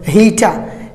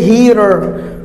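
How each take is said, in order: First: British accent, with no final r sound. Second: American accent, with the final r pronounced. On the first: "they don't pronounce R when it comes in the end. They'll say heater" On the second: "Americans say heater"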